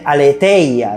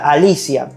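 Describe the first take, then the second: First: It is said a-le-thei-a, with a 'th' sound. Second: It sounds like the name Alicia, without 'th'. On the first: The speaker calls it wrong. "Muchos teólogos dicen aletheia" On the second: The speaker calls it right. "se pronuncia Alicia, sí, como el nombre Alicia"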